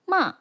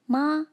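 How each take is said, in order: First: The pitch falls downward. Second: The pitch stays level throughout. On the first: "falls like this" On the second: "maintains its pitch from start to finish"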